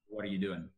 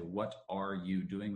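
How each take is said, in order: First: The words are linked and run together. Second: Each word is said separately, without linking. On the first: The speaker calls it right. "But rather" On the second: The speaker calls it wrong. "we don't say in American English"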